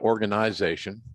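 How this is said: It is said in a put-on Canadian accent.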